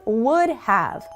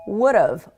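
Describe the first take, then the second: First: The word have is said in full. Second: Have is reduced to a short ve sound. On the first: It sounds the most formal. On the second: It sounds fairly professional.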